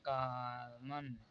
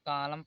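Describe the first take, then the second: First: The word ends with a sounded n. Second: The word ends on m with n silent. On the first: The speaker calls it wrong. "आप लोग इससे पहले नहीं जानते रहे होंगे तो इसे पढ़ रहे होंगे" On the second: The speaker calls it right. "यहाँ पर एन साइलेंट हो जाता है"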